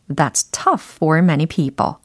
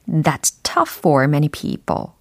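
No difference in how they are said.

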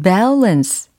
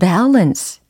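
Both takes have the same delivery.

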